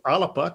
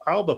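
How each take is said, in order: First: The name is said with a Gaelic pronunciation. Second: The name is said with an English pronunciation.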